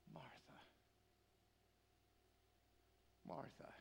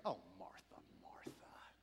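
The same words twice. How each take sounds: First: Hushed, heartbroken calling of a name; Jesus, tearful. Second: Low, sighing brush-off, trailing to a hush; mock dismissive. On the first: Retold or imitated. Jesus to a woman he loves, softly through tears. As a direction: breathe each name softly, long pause between. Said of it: "through his tears, he goes". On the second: How we often say it to Martha, mildly dismissive. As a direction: wave her off with a weary "oh". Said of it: "I do not think he says this dismissively".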